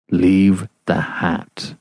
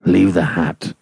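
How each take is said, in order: First: Slow, distinct and muffled; very distinctly. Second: Low voice muffled by cloth. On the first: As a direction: spell out each word slowly through cloth. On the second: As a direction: speak through a cloth, lower. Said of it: "in a muffled voice". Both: Acted.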